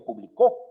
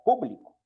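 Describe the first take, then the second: First: The stress is on the last syllable. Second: The stress is on the first syllable. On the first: "en la última sílaba y como tal sería una aguda" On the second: "reciben la fuerza de pronunciación en la antepenúltima sílaba"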